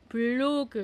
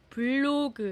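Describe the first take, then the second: Both takes have the same delivery.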